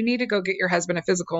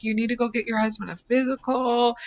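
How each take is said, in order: First: Fast, firm, insistent warning; delivered stronger. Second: Gentle hint. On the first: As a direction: push it harder, quicker. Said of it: "you gotta deliver this stronger". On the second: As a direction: ease it in gently, no pressure. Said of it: "trying to kinda tell her a little bit". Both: Retold or imitated.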